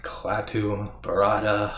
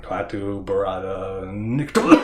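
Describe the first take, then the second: First: Slow, careful chant that trails off unfinished; fumbled incantation. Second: Slow, loud, grand recital of every word; full incantation. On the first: Ash slowly reciting the magic words and forgetting the last. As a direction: spell out the magic words slowly, then lose the last one. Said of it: "Damn it, wait a minute". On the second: Ash finally reciting the magic words, slow and loud. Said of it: "when he says the words". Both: Retold or imitated.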